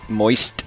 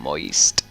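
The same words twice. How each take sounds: First: The word is said in a plain voice. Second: The word is drawn out with sensual emphasis.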